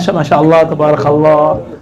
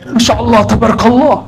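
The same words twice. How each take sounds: First: It is said in a plain, casual way. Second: It is said in an overdone, exaggerated way.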